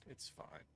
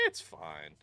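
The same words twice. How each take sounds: First: Breathy whispered aside to self; whispering. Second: Said in the usual way. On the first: Real, not acted. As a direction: drop to a whisper for It's fine. Repeated, second time whispered.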